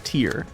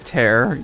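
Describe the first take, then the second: First: The vowel sounds like the one in 'ear'. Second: The vowel sounds like the one in 'air'. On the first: It means a teardrop from crying. The speaker calls it wrong. "you say tear" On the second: It means a rip, as in dimensional tears. The speaker calls it right. "I say tear"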